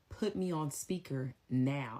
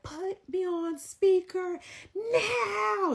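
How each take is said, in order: First: The line is said calmly and quietly. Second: The line is yelled loudly.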